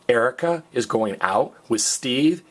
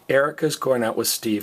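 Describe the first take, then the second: First: The voice rises at the end. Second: The voice falls at the end. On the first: It asks whether this is so. "is a question" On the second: It states this as a fact. "is a statement"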